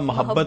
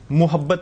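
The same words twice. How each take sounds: First: The first syllable has an 'a' vowel. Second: The first syllable has a 'u' vowel. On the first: The speaker calls it right. "मोहब्बत होता है, मोहब्बत में जबर रखिए" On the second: The speaker calls it wrong. "मोहब्बत नहीं होता, पेश मत रखिए"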